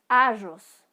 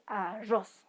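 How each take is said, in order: First: The stress is on the first syllable. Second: The stress is on the last syllable. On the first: The speaker calls it wrong. "no es arroz" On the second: The speaker calls it right. "La sílaba tónica de esta palabra es ros"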